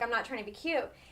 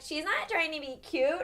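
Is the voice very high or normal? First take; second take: normal; very high. First: It is said in a normal voice. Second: It is said in a very high voice.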